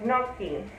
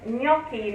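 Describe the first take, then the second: First: The g and n are sounded separately. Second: The gn is one blended ny sound. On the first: The speaker calls it wrong. "not gnocchi" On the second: The speaker calls it right. "So it's like gnocchi. It's gnocchi"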